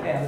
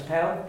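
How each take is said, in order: First: "pel" with the e held long; long-e "pel" as the wrong example; mistaken long vowel. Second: "pel" with a short e; short-e "pel" as the model; correct short vowel. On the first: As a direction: stretch the short e of "pel" too far. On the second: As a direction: keep the e in "pel" brief. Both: Shown as a demonstration. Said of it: "It's a shorty".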